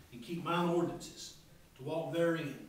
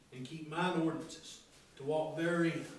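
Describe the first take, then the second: Both takes have the same delivery.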